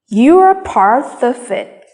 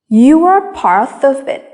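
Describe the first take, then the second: First: Some words are said with clear stress. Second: Some words are said with clear stress.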